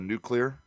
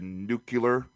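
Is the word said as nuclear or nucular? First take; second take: nuclear; nucular. First: The word is said in the standard way. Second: The word is said with an extra middle vowel. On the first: This is the usual way to say it. "instead of nuclear" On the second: This is how a politician said it. "why he said nuclear"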